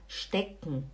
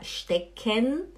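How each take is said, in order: First: The e of the final syllable is swallowed. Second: The final syllable keeps its full e vowel. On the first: The speaker calls it right. "É como se o E você não falasse" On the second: The speaker calls it wrong. "você não fala stecken"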